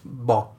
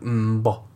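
First: The word begins with a plain b sound. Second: The word begins with a nasal m sound. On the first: The speaker calls it wrong. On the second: The speaker calls it right.

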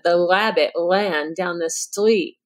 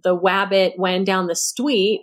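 First: The R sounds are distorted, not clear W sounds. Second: The R sounds are replaced by clear W sounds. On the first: "where it's not a clear W, you know, substitution" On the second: "it's not, you know, the wabbit when down the street"

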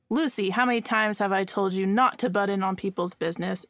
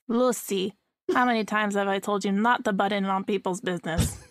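First: It is spoken in the speaker's ordinary accent. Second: It is spoken in an imitated Cuban accent.

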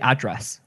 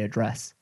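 First: The stress is on the first syllable. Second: The stress is on the second syllable. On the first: This is the American way of saying it. "It's like how they say address" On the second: This is the British way of saying it. "We say address"

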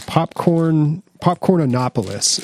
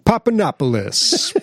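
First: The middle syllable 'corn' is pronounced. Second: The middle syllable 'corn' is left out. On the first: The speaker calls it right. "Popcornanopolis is what this stuff is called" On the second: The speaker calls it wrong. "he's not even saying it right. He's saying"

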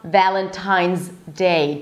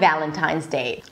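First: The two words are said separately with a break. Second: The Z runs straight into the D without a break. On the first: The speaker calls it wrong. "So it's not Valentine's Day. Don't separate it" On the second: The speaker calls it right. "you're actually pronouncing the Z and then you're blocking it with the D"

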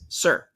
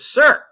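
First: It is said softly. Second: It is said very loudly.

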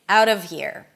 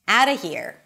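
First: The word 'of' keeps its V sound. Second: The word 'of' is a schwa without V. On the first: "it's not a mistake to say the of" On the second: "I also dropped the V completely"

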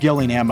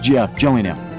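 First: It begins with a hard G sound. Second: It begins with a soft J-like sound. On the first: The speaker calls it wrong. "I said Gillingham. I was corrected" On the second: The speaker calls it right. "So it's a soft G? It's Gillingham"

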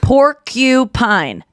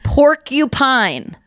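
First: The middle syllable has a clear u vowel. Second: The middle syllable has a clear u vowel.

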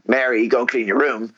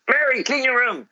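First: It is said as a firmer demand. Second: It is said as the strongest, sternest command.

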